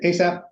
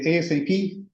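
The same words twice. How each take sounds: First: It is said as one single word. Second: Each letter is said separately. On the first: It is treated as an acronym. "that's an acronym" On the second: It is treated as an initialism. "that's an initialism"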